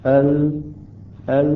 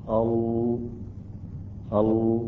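First: ال twice with a thin, clear L; light lam. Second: ال twice with a thick, dark L; heavy lam. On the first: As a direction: say ال with only the tongue tip, un-darkened. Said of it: "أن نرقق هكذا". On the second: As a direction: say ال with a full, velarized lam. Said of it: "إذا نريد أن نفخم اللام". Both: Shown as a demonstration.

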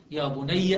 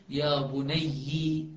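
First: يا بني ending in an open "-ya"; fatha on the final ya. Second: يا بني ending in "-yi", drawn out slowly; kasra on the final ya. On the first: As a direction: say يا بني as "ya bunayya". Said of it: "بفتح الياء". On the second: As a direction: say يا بني as "ya bunayyi". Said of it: "والباقون يقرؤون". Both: Shown as a demonstration.

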